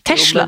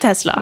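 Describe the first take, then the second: First: The word is said with an sh sound. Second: The word is said with a plain s sound. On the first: The speaker calls it wrong. "Det er ingen som har rettet meg på at det er ikke SH der inne" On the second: The speaker calls it right. "for det heter Tesla"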